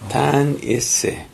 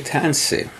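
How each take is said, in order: First: It is said in full, as in High Cree. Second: It is said shortened, as in newer Cree.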